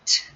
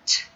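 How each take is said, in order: No difference in how they are said.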